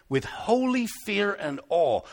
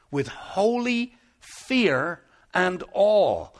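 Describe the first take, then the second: First: Said in the usual way. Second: "holy", "fear" and "awe" set apart, very slow; emphatic repeat. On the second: Real, not acted. Preacher repeating the verse to the congregation, "holy fear and awe" slow and emphatic. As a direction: weigh out "holy ... fear ... and awe" slowly with pauses.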